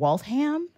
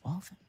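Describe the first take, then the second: First: It is pronounced the way it is spelled. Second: It is pronounced the local Massachusetts way. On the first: The speaker calls it wrong. "kept saying Waltham" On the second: The speaker calls it right. "it's Waltham"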